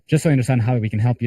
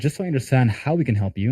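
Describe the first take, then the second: First: It is rattled off quickly in a flat tone. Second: It is said in a measured, expressive tone. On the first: The speaker calls it wrong. "It's like I'm just rapping it out" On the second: The speaker calls it right. "notice the tonality that I'm saying it with"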